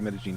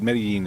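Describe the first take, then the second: First: The double L sounds like zh. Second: The double L does not sound like zh. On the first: "they say Medellin because that's kind of the accent is the zh on the double L" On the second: "would be totally fine as well"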